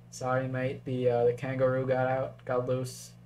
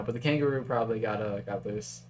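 First: Second go at a badly faked Australian accent; shitty Australian accent. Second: Said in the usual way. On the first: Game commentator joking about an escaped kangaroo, bad Australian accent. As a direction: put on a weak, mock Aussie accent. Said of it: "that was a shitty Australian accent". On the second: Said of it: "I'm stopping now".

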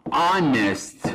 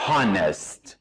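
First: "honest" said with a silent h, starting on the vowel, as "onest". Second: "honest" said the wrong way, with the h sounded at the start. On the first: Teacher showing students the correct "honest", h silent. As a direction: say "honest" without the h sound. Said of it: "ما میگیم". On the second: Teacher showing students the wrong "honest", h pronounced. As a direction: voice the h at the front of "honest". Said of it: "نمیگیم". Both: Shown as a demonstration.

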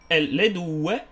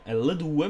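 First: Said in the usual way. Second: Cracked voice mid-word; voice cracking. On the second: Real, not acted. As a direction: voice breaks on a word. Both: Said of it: "mi si è rotta la voce".

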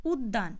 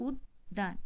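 First: Said in the usual way. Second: উদ্যান said uddān with a doubled d; উদ্যান pronounced uddān, d doubled; doubled d sound. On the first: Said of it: "এখানে আমরা যখন উচ্চারণ করছি". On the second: Shown as a demonstration. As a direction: hold the d twice in উদ্যান, uddān. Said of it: "এখানে কিন্তু দ ধ্বনিটির দ্বিত্ব উচ্চারণ হয়েছে".

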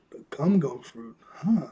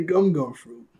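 First: Lightly imitated puzzlement, ending in a questioning huh; confused echo. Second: Said in the usual way. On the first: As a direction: repeat it back, mildly baffled. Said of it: "He's, like, really confused". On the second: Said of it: "He goes".

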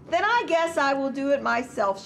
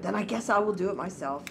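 First: Higher-pitched storybook exclamation; lightly acted exclamation; exclaimed. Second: Quick, understated storybook mutter; mildly grumbled, pitch kept down. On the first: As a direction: exclaim it as the hen, starting high. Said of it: "she exclaimed". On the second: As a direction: mutter it lightly as the hen, hurried. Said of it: "The little red hen muttered". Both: A narrator's reading.

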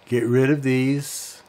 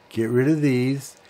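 Both takes have the same delivery.

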